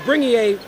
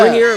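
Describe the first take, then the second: First: The name ends with an 'ay-ah' sound. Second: The name ends with an 'ear' sound. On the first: The local pronunciation. The speaker calls it right. "The E R is, is like an E A instead of an ear" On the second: An Americanized pronunciation. The speaker calls it wrong. "a very Americanized version"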